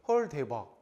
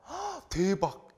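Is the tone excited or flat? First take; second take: flat; excited. First: It is said flatly, without excitement. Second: It is said with lively excitement.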